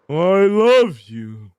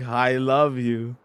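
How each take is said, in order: First: It is said in a put-on cartoon voice. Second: It is said in his natural voice.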